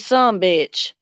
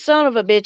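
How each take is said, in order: First: The phrase is squeezed into two syllables. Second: Every word is spoken out in full. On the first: "I say some bitch" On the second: "I don't say son of a bitch"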